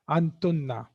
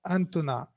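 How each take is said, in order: First: The final n sound is held long and doubled. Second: The final n sound is short and single. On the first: The speaker calls it right. "Make sure that on noon you are stopping" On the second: The speaker calls it wrong. "it's not antuna"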